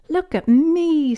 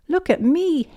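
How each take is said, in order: First: High, loud, drawn-out cry; proud show-off child. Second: High, loud show-off cry; cackling child witch. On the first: Acted. Peppa showing off her unicorn costume. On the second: A narrator's reading. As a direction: crow it high like a little witch. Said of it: "cackled Peppa".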